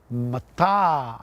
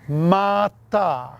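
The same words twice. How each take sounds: First: The second vowel is long. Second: Both vowels are long. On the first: It means obsidian. "if you put a macron over the second A, it is pronounced as in" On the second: It means heap. "if you place a macron over both A's, it's pronounced like this"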